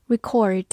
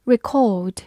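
First: "record" as American verb, ri-KORD; American verb pronunciation. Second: "record" as British verb, ri-KAWD; British verb pronunciation. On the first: Teacher gives learners the verb, American accent. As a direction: say "record" the American way, stress second, R sounded. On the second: Teacher repeats the verb for learners, British accent. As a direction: say "record" the British way, stress second, no R. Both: Shown as a demonstration. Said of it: "美式发音record".

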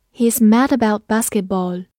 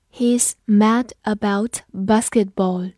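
First: Said in the usual way. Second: Slow, word-by-word model reading; slow read-through. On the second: Shown as a demonstration. Teacher models an English sentence for learners, slow read-through. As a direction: read it slowly with clear gaps between words. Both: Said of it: "我们慢读一遍".

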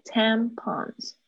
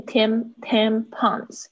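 First: TAM-pons, with the stress on the first syllable of tampons. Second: Tampons as TAM-PONS, both syllables hit equally; double stress. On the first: Shown as a demonstration. Teacher showing student where stress goes, first-syllable stress. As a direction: hit TAM in tampons, let -pons fall away. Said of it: "重音是在第一个音节". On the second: Retold or imitated. Teacher imitating student's tampons, double-stressed. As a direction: slowly give tampons two separate stresses. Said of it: "好像有两个重音".

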